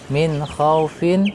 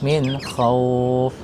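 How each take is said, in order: First: The 'au' sound is short, with a final vowel. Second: The 'au' sound is drawn out, phrase ends abruptly. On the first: The word is read without stopping. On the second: The reader stops on this word.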